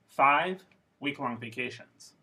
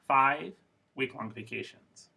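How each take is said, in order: First: It is split into two groups after five. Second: It is split into two groups after five.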